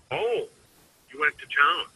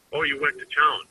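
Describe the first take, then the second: First: High jump on "Oh", rising "town"; surprised. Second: Said in the usual way. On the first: Shown as a demonstration. Salesman demonstrating a surprised reading, high "Oh". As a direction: sound taken aback that they went. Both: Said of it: "all three of those things ... different meaning".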